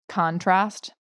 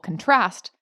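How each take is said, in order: First: The stress is on the first syllable. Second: The stress is on the second syllable. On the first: It is used as a noun. "the noun, the emphasis is on the first syllable" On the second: It is used as a verb. "if you put the emphasis on the second syllable"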